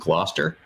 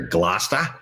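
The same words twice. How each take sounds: First: It is said in a general American accent. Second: It is said in the local Massachusetts accent.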